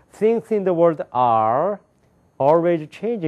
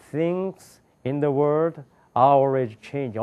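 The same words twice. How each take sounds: First: Higher-pitched reading, "are" hung on "Things in the world"; wrong phrasing. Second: "Things", "in the world", "are always changing" in separate chunks; correct phrasing. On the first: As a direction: stop after "are", then "always changing". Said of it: "어떤 사람이 이렇게 읽는 사람". ("are" 뒤에서 잘못 끊어 읽기) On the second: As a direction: break before "are", keeping "are" with "always changing". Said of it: "읽을 때도 어떻게 읽어지는 게 아십니까". ("are" 앞에서 끊어 읽기) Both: Shown as a demonstration.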